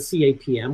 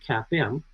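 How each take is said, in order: First: Each letter is said separately. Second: The letters are said as one word. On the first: "how Sharpe himself pronounces it as an initialism" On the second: "the common acronym"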